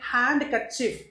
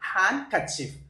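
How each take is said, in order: First: The d sound is pronounced. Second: The d sound is silent. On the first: The speaker calls it wrong. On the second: The speaker calls it right.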